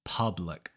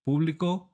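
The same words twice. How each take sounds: First: Public as "PUH-blic", low and falling; English pronunciation. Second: Público with Spanish oo, higher and rising; Spanish pronunciation. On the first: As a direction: switch back to English uh in public. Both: Shown as a demonstration. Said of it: "switching between Spanish and English".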